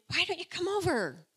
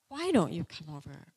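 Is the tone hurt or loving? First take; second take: loving; hurt. First: It sounds warm and loving. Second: It sounds hurt and accusing.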